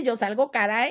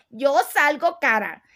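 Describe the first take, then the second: First: Said in the usual way. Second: "Yo salgo cara" punched out a little louder; emphatic repeat. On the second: Real, not acted. Streamer warning followers she is expensive, emphatic on "Yo salgo cara". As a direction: drive home every word of "Yo salgo cara".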